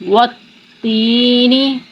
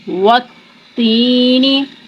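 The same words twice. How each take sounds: The two takes are said the same way.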